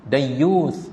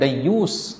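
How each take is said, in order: First: The word ends with a soft 'th' sound. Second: The word ends with an 's' sound. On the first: The speaker calls it right. "dibaca dengan huruf tha hujungnya" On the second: The speaker calls it wrong. "bukan dayyus. Kita orang Melayu sebut dayyus"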